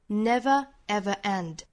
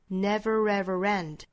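First: Small glottal breaks separate each of the words. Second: The words run together, joined by an r sound. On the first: "在 never ever 之间还有 ever 和 end 之间做停顿，相当于是一个小小的 glottal stop" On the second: "这三个词如果都连上的话都会有这个小小的 r 这个音来连接的"

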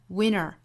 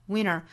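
No difference in how they are said.

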